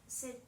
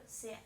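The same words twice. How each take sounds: Both takes have the same delivery.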